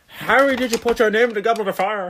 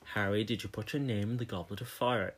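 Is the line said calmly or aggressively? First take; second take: aggressively; calmly. First: It is said in an aggressive, shouting way. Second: It is said in a calm, quiet way.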